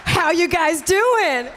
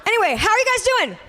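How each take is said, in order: First: Slow, drawn-out, higher shout to the crowd; mock hype call. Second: Fast, high, perky check-in; quick crowd greeting. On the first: Host repeats her greeting to the room, drawn-out hype shout. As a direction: demand an answer like a hype act, stretching the words. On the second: Pretend. Host changes subject to greet the room, quick high greeting. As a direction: toss it out quickly with a high lift.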